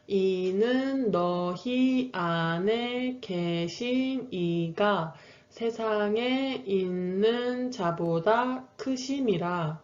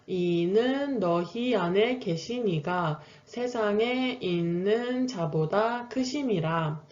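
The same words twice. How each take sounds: First: The verse is read at a slow pace. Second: The verse is read at a fast pace. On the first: "조금 천천히 읽어보도록 할게요" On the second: "조금 더 빠르게 읽어보도록 할게요"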